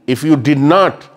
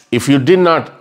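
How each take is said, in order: Both takes have the same delivery.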